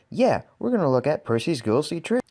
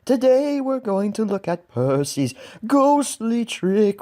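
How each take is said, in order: First: Said in the usual way. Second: High, slow, eerie ghost voice; drawn-out spooky ghost voice. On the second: Pretend. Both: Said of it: "just like that ghostly voice said".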